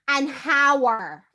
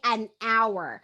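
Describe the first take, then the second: First: The word hour starts with a breathy H sound. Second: The word hour starts directly with a vowel sound. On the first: The speaker calls it wrong. "we don't say an hour" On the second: The speaker calls it right. "We say an hour. So it's a vowel sound"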